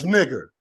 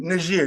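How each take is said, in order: First: "nigger" with a short i and a hard g, as the slur; mock corrected pronunciation. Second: "Niger" said as the usual name of the country; the country name as usually said. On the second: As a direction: say "Niger" the usual way, as a set-up before the correction. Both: Shown as a demonstration. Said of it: "Niger, no, it's nigger".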